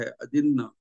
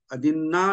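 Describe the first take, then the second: First: अदिन्न with a short, falling final vowel; common mispronunciation. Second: अदिन्ना with a long final "aa"; corrected pronunciation. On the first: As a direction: keep the last "a" of अदिन्न short. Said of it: "तो वो गलत है". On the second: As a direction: draw out the last vowel of अदिन्ना. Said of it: "अदिन्ना ही कहना चाहिए". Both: Shown as a demonstration.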